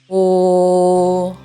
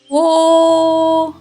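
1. Голос низький. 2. Голос високий. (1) "низьким голосом кричить" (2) "високим голосом речить"

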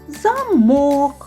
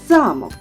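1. Наголос на другому складі. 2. Наголос на першому складі. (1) "Якщо ми наголос переставимо на «о»" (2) "Під наголосом «а»"

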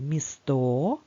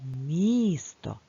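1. Наголос на другому складі. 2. Наголос на першому складі. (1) "ми не будемо кликати «місто»" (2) "правильно казати «місто». Тож наголос буде стояти на букві І"

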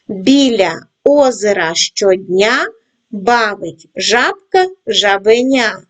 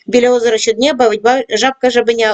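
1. Читається у повільному темпі. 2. Читається у найшвидшому темпі. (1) "починаємо працювати із скоромовкою в повільному темпі" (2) "кожного разу пришвидшуємо темп"

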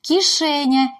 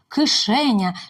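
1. Перед голосним «к» пом'якшується. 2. Перед голосним «к» твердий.

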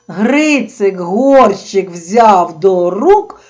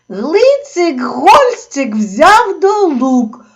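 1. Звуки Р вимовляються як Р. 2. Звуки Р замінюються звуками Л. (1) "Тобто" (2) "Почав удома бабусі розповідати"

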